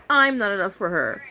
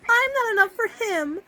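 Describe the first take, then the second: First: Lightly voiced mopey husband; a hint of a sad husband; lamenting husband. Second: Much higher, mock tragic wife; husband voice then the wife echoes it much higher; lamenting wife. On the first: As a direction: moan it in his lightly voiced sorrow. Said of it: "he's lamenting". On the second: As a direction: whimper it like a tragic heroine. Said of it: "She's now lamenting".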